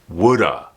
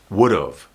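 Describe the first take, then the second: First: It is quickly reduced to woulda. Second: It is contracted, sounding like would of. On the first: "when someone speaks English very quickly, this sounds like woulda" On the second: "Would have becomes would've"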